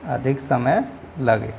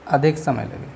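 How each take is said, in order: First: अधिक समय लगे slowed right down, each word weighed; slow emphasis. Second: Said in the usual way. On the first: Shown as a demonstration. Teacher stressing the definition, अधिक समय लगे slow. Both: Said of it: "दीर्घ स्वर से".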